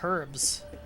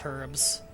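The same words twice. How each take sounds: First: The word begins with an audible h sound. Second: The word begins with a vowel, h silent. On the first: This is how most of the United Kingdom says it. "across the majority of the United Kingdom, it's pronounced herbs" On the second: This is how some places in the States say it. "in some places in the States, it's herbs"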